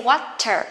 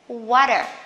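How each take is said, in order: First: The middle t is a crisp t sound. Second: The middle t is a soft d-like sound. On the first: "You can say water" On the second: "You can pronounce as the soft the"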